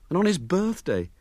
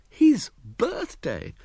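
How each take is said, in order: First: Said in the usual way. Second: "His birthday!" high and very slow in mock grievance; "His birthday!" wailed high and slow; aggrieved exclamation. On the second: A narrator's reading. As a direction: drag out "His birthday!" like a sulking boy. Echoed grievance, drawn out.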